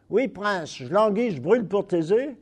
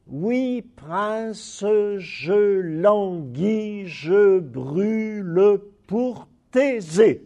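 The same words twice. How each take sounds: First: Quick spoken French, mute e dropped so "je brûle pour Thésée" becomes "j'brûl' pour Thésée"; everyday eight syllables. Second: Slow, careful recitation with every mute e in "je brûle pour Thésée" sounded; full twelve syllables. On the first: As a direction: rattle off "Oui, prince, je languis, je brûle pour Thésée" as in casual speech. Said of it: "there are eight". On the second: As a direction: recite "Oui, prince, je languis, je brûle pour Thésée" slowly, giving "je" and "brûle" each full syllables. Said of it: "Those are twelve syllables". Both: Shown as a demonstration.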